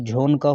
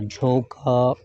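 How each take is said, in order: First: The n is pronounced as a full consonant. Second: The n is only a nasal vowel colouring. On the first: The speaker calls it wrong. "ये झोन का होना चाहिए, लेकिन नून जो है पूरा नहीं पढ़ा जाने का है" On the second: The speaker calls it right. "बल्कि गुन्ने की आवाज़ के साथ पढ़ा जाएगा"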